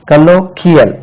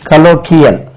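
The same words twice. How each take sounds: The two takes are said the same way.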